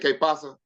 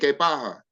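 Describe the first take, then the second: First: The s sound in pasa is clearly pronounced. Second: The s sound in pasa is weakened.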